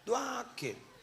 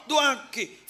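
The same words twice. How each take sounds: First: Doaki said high but soft, falling away; softly coaxing doaki. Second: Doaki called out high and loud, falling at the end; loud summons to pray. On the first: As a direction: drop doaki to a quiet prompt. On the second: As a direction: belt out doaki as a call to pray. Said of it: "Yuk, cek lebih temen Allah". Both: Shown as a demonstration.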